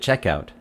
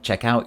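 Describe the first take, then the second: First: The stress is on the first part. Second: The stress is on the second part. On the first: It names the place where you pay. "The stress is on the first part, check" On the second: It names the action of borrowing something. "then the stress is on the second syllable"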